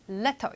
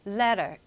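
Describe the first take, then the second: First: The middle T is pronounced clearly. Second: The middle T is soft, like a flap.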